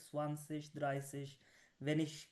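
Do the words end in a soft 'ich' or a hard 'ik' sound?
soft ich. The word endings are a soft 'ich' sound. This is how people speak in another region. "तब वहाँ पे ये स्वानसिश द्राइसिश वेनिश कह रहे थे"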